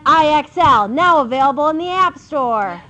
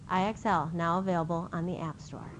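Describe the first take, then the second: First: It is said in a bold, dramatic manner. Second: It is said in a mild, plain manner.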